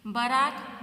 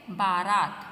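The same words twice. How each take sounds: First: Short first vowel, "बारात" as buh-RAAT; misspelt option. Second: Long first vowel, "बारात" as BAA-raat; loud, falling "बारात" with both a's long; correct pronunciation. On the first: Teacher reads out a wrong option for pupils, short-vowel mispronunciation of "बारात". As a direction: say "बारात" with a clipped first a, rising. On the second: Teacher gives pupils the correct word, firm long-vowel "बारात". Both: Shown as a demonstration. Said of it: "शुद्ध शब्द कौन सा है".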